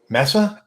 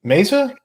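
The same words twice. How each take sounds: First: Mesa retried as MESS-uh, with a rising question; short e and hissed s in Mesa, high and unsure; corrected pronunciation attempt. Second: Mesa said MAY-zuh, pitched up as a question; high, rising "Mesa?" with a z sound; wrong pronunciation. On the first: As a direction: try "Mesa" with an s sound, asking if it's right. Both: Shown as a demonstration. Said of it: "You still said it wrong".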